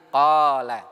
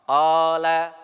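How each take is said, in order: Both takes have the same delivery.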